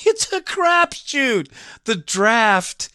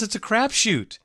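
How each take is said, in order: First: Drawn-out, very high squeal of exasperation; incredulous high-voiced outburst; high-pitched exclamation. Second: Said in the usual way. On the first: Real, not acted. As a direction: repeat it way up high, stretching the words. Exclaimed repeat of his point.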